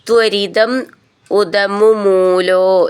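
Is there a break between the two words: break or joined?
break. The two words are said separately with a break.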